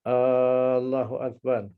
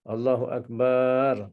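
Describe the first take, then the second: First: The first vowel A is drawn out long. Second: The final syllable bar is drawn out long. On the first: "kita tak boleh panjangkan A" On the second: "Ataupun kita panjangkan bar"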